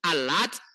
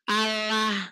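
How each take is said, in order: First: The word ends with a t sound. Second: The word ends with an h sound. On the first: This is the usual reading. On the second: This is the reading of one school when pausing.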